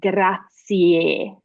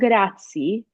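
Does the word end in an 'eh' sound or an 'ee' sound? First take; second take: eh; ee. First: The word ends with a clear 'eh' vowel. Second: The word ends with an 'ee' vowel. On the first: The speaker calls it right. "which is pronounced grazie" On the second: The speaker calls it wrong. "not grazie"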